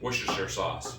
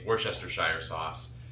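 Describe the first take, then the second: First: The word is shortened, with few syllables sounded. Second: The word is drawn out, with more syllables sounded. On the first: This is the officially recommended pronunciation. "that's how they say to say it" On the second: This is the speaker's own pronunciation. "There's a lot more consonants and vowels in there than they give it credit for. I say"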